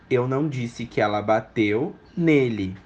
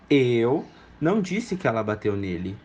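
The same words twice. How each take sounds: First: The word nele is stressed. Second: The word eu is stressed. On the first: She hit someone else. "Nele não, mas ela pode ter batido" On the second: Someone else said it. "Eu não, mas alguém pode ter dito"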